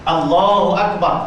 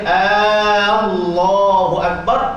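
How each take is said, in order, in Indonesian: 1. Vokal pembuka pada Allahu pendek. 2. Vokal pembuka pada Allahu dibaca panjang. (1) "Sepatut dia ni perkhabaran, pernyataan" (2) "Kalau kita baca panjang, dia akan jadi pertanyaan"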